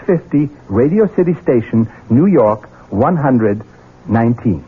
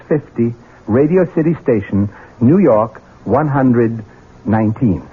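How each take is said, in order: Both takes have the same delivery.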